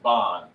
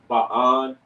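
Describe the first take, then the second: First: The word is joined into one piece. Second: The word is split into two separate parts. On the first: The speaker calls it right. "it'll be pronounced just bond" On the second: The speaker calls it wrong. "It won't be ba on"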